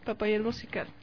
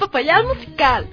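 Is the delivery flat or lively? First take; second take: flat; lively. First: It is said flat, with little melody. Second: It is said with lively, varied melody. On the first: "Solo así, tan seco" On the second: "Póngale entonación"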